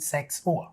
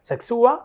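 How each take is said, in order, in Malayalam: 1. അവസാനം സ്വരം താഴുന്നു. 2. അവസാനം സ്വരം ഉയരുന്നു. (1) "ഇതിന്റെ ഇൻറ്റോണേഷൻ നമുക്ക് താഴേക്ക് കൊണ്ടുവരാം" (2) "അങ്ങനെ പോകേണ്ട ആവശ്യമില്ല"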